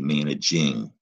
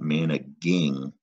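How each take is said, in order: First: The g is pronounced soft, like j. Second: The g is pronounced hard, as in go. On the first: The speaker calls it right. "It's still that soft G" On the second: The speaker calls it wrong. "you have to remember that is not managing"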